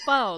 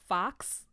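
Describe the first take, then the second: First: The final x is silent, like foe. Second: The final x is sounded, like fox. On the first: The speaker calls it right. "it's faux, like faux fur" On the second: The speaker calls it wrong. "They think F A U X is fo- fox"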